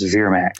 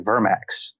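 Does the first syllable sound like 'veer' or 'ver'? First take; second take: veer; ver. First: The first syllable has a long 'veer' vowel. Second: The first syllable has a short 'ver' vowel. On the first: "But Daemon says Vermax" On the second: "It's V-E-R-M-A-X, so I would say Vermax"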